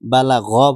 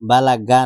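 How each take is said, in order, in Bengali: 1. শেষ ব্যঞ্জনটি গলা থেকে আসা gh। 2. শেষ ব্যঞ্জনটি সাধারণ g। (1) "বালা গ পড়তে হবে" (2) "গইন গ পড়ে না, বালা গা না"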